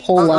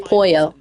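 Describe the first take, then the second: First: The middle consonant is an l sound. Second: The middle consonant is a y sound. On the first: Only a few people say it this way. The speaker calls it wrong. "some people, like factual, call him Polo" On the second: This is the speaker's own preferred way to say it. The speaker calls it right. "I say Poyo. It just sounds nicer"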